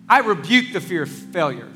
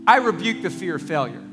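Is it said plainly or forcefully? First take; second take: forcefully; plainly. First: It is said forcefully, with conviction. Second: It is said plainly, without force.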